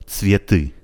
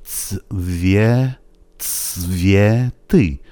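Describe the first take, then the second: First: Said in the usual way. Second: "تسویتی" drawn out, ts held, then vye, then thick ty; slow thick-i demo. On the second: Shown as a demonstration. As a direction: build "تسویتی" slowly piece by piece. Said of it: "اون ای آخر دوباره از اون ایهای غلیظه".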